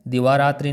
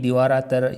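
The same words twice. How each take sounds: First: दिवारात्रि ending in "tri"; wrong form. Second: दिवारात्र ending "raatar", no "i"; correct form. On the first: Teacher shows students the faulty ending, emphatic. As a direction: clear final "i" on दिवारात्रि. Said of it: "नहीं". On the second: Teacher corrects the word ending, carefully pronounced. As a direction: drop the "ee" from दिवारात्र. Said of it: "दिवारात्रि नहीं". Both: Shown as a demonstration.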